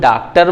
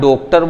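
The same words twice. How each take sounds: First: The first vowel is an open aa sound. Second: The first vowel is a closed o sound. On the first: "ना तो हम डॉक्टर बोलते हैं" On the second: "ना डॉक्टर बोलते हैं"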